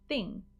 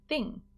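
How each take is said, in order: The two takes are said the same way.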